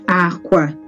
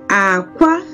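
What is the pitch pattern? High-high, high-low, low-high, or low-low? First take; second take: low-low; low-high. First: Both syllables are on a low pitch. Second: Pitch starts low, then goes high. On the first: "they are both low uh, pitch tone" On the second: "it started low, ... and then it went off high"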